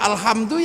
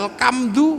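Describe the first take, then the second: First: The middle consonant is a breathy h sound. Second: The middle consonant is a hard k sound.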